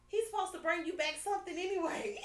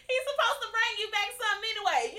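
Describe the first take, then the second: First: Half-shouted through laughter, pitched up; laughing retort. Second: Emphatic repeat. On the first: Retold or imitated. Telling her man he owes her food, laughing loudly. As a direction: tease him while cracking up. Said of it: "And you say". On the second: Real, not acted. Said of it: "repeats the line".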